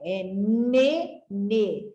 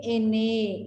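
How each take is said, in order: First: "nenê" slow, the N sound clear at the start; right syllable sound. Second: "enê" said like the letter name, e-NÊ; wrong letter-name reading. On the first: Teacher gives pupils the right reading, slow "nenê". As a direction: stretch out "nenê" so the ne sound is heard. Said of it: "e não é, é nenê". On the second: Teacher shows pupils the wrong way, "enê" like the letter name. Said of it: "a palavra nenê seria enê". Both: Shown as a demonstration.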